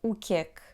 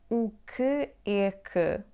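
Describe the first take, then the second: First: The phrase is said fast, words run together. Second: The phrase is said slowly, word by word. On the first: The speaker calls it right. "so it becomes" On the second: The speaker calls it wrong. "you never say that slowly"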